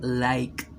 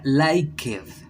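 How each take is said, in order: First: The ending is a short T sound. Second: The ending is an extra 'ed' syllable. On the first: The speaker calls it right. "sería liked, como con una T" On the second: The speaker calls it wrong. "no sería liked"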